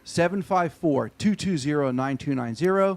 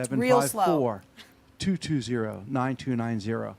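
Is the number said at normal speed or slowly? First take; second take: normal speed; slowly. First: The number is said at normal speed. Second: The number is said very slowly.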